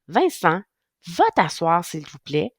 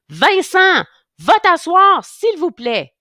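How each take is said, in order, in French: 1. La voix semble calme et douce. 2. La voix semble en colère et dure.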